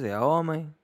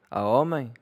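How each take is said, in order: First: "homem" repeated a little higher and held; stress on homem, slightly higher. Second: Homem stressed and falling at the end. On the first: Insisting again to viewers he is a real man, homem held. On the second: Boasting to viewers that he is a real man, stressing homem. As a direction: land hard on "homem" and let it fall. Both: Shown as a demonstration.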